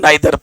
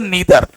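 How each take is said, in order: First: The first syllable sounds like 'nye'. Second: The first syllable sounds like 'nee'. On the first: This is how people usually say it. The speaker calls it wrong. "अब इसको तुम लोग पढ़ते हो नाइदर" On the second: This is how it should be said. The speaker calls it right. "तो इसको पढ़ते नीदर"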